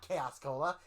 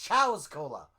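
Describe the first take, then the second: First: The first word sounds like the English word chaos. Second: The first word sounds like chows, one syllable. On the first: The speaker calls it wrong. "It's not Chaos Cola" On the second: The speaker calls it right. "It's Chow's Cola"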